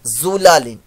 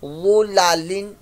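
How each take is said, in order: First: The first consonant is a thin, light z. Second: The first consonant is thick and heavy. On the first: The speaker calls it wrong. "यहां गलती ये होगी कि वो की जगह सर लोग जुलालिन पढ़ देंगे" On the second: The speaker calls it right. "हरूफ मुस्तालिया विद थिक वॉइस"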